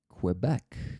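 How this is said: It is said the way many Americans say it. "many Americans say Quebec"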